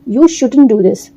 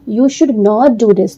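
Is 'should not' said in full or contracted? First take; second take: contracted; full. First: Should not is contracted into one word. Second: Should not is said as two full words. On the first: "आप short में ऐसे बोलो" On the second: "शुड नॉट"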